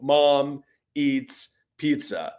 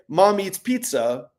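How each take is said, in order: First: It is read slowly, word by word. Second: It is read at a quick, natural pace. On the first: The reader is pointing at each word. The speaker calls it wrong. "But with pointing, you might go" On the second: The reader is not pointing at each word. The speaker calls it right. "without pointing"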